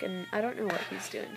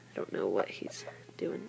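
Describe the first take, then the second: First: Said in the usual way. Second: Softer, puzzled whisper to herself; hushed aside about the dog. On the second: Real, not acted. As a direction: breathe it out, bemused. Puzzled at dog among chicks.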